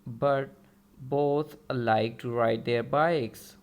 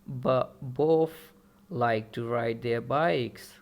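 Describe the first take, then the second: First: The T and TH sounds are fully pronounced. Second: The T is dropped and TH becomes F.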